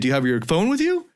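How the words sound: The pitch rises at the end. The speaker sounds less confident. The speaker calls it wrong. "Don't say, ... And do an uptone"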